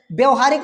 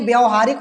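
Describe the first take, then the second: First: व्यवहारिक with a short a in the first syllable; wrong spelling read out. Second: व्यवहारिक said with a long aa in the first syllable; corrected व्यवहारिक, opening vowel stretched to aa; correct spelling read out. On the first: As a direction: say व्यवहारिक, starting "vya" with a brief vowel. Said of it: "व्यवहारिक नहीं". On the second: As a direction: say व्यवहारिक as "vyaa-va-haa-rik". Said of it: "व्यवहारिक होता है". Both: Shown as a demonstration.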